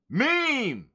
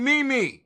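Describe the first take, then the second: First: It is said as a single syllable. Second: It is said as two separate syllables. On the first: The speaker calls it right. "It's meme" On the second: The speaker calls it wrong. "this ain't me me"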